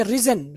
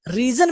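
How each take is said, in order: First: रिजन with a short "i"; correct pronunciation. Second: रीजन with a long "ee"; mistaken pronunciation. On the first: Teacher corrects the reading, रिजन as "rizzen". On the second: Teacher shows what to avoid, रीजन as "reezan". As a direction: stretch रीजन into "ree-zan". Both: Shown as a demonstration. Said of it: "रीजन भी नहीं पढ़ेंगे".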